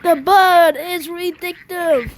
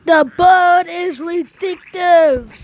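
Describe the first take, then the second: First: Steady title read; title repeated. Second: Slow, loud, punched title The Bird is Vindictive; slow grand title announcement; dramatic title. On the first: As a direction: announce the title again, steady and slow. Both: Shown as a demonstration. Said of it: "Yes, you heard me".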